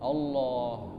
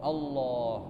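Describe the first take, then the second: Both takes have the same delivery.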